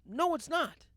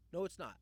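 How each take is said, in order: First: Loud, higher snap of NO; forceful rebuttal; emphatic denial. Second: Said in the usual way. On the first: Real, not acted. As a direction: shut the claim down hard. Rebutting the favorite claim.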